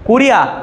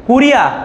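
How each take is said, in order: The two takes are said the same way.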